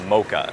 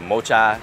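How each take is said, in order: First: The middle consonant is a 'k' sound. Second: The middle consonant is a 'ch' sound. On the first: The speaker calls it right. "Hai chữ xê hát được đọc y như chữ K" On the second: The speaker calls it wrong. "Nó không phải"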